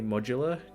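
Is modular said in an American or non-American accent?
non-American. It is said in a non-American accent. "Do I say modular in a weird way? I suppose I do"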